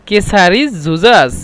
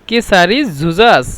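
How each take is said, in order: Both takes have the same delivery.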